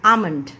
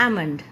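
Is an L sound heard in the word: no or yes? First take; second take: no; no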